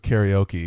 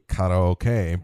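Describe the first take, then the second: First: It is said with an American accent. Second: It is said with Japanese-style even syllables. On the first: This is the Americanized form. The speaker calls it wrong. "that's not how you pronounce it in Japanese at all" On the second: This is how the language's speakers say it. The speaker calls it right. "It is actually"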